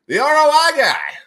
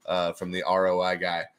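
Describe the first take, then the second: First: "The R O I guy" said louder and much higher; R O I guy repeated. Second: Said in the usual way. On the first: Shown as a demonstration. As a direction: repeat "The R O I guy" with a loud high punch.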